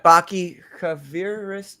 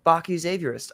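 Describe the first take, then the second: First: "Baki Kaviris" said slowly with a hard K opening the surname; mispronounced name. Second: "Baki Xavierist" with the surname opening like Xavier; corrected name. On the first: Host reading a chatter's name, "Baki Kaviris" mispronounced with a K. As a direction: stumble slowly through "Baki Kaviris", surname starting with a K sound. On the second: Host rereading a chatter's name after correction, "Xavierist" said like Xavier. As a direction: say "Xavierist" as Xavier plus -ist. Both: Real, not acted. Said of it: "I think that's like Xavier".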